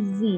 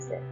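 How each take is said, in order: First: The letter is said as zee. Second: The letter is said as zed. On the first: The speaker uses American English. "اگه بوده با لحجه امریکن صحبت میکنین حتما باید بگین زی" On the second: The speaker uses British English. "اگر بریتیش هستین باید بگین زد"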